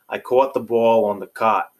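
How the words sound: It has a New York/Mid-Atlantic accent.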